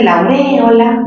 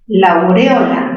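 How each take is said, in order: First: Aureola with a strong stressed e. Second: Aureola stressed on the o. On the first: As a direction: lean on the e, au-RÉ-o-la for aureola. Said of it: "palabra esdrújula y debe ser tildada". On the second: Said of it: "En O". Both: Shown as a demonstration.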